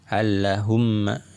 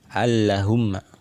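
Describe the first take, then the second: The two takes are said the same way.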